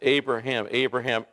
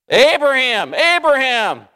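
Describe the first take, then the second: First: It is said calmly, without urgency. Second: It is said with urgent intensity.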